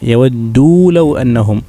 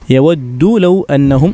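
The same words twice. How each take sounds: First: The vowel is drawn out long. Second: The vowel is kept short. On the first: The speaker calls it right. "മദ്ദുണ്ട്, അപ്പം നീട്ടണം" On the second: The speaker calls it wrong. "എന്ന് പറയരുത്"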